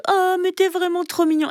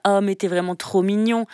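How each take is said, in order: First: Put-on high cooing baby-talk voice; sugary, high-pitched pet talk; high cutesy voice. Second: Said in the usual way. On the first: Shown as a demonstration. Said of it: "plutôt que". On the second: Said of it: "avec la voix comme ça".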